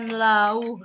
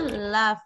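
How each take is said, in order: First: The word ends on a vowel sound. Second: The word ends with an f sound. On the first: The speaker calls it wrong. "bukan lau ya" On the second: The speaker calls it right. "bacanya love"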